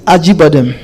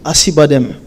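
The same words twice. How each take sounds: First: The c is pronounced like a j sound. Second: The c is pronounced like a k sound. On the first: This is the original Turkish pronunciation. "c'est la prononciation. Parce que le C en turc, ça se lit J" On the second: This is a simplified reading used for communication. "par facilité de lecture qu'on dit Acıbadem pour la communication"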